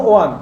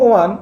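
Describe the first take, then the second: Both takes have the same delivery.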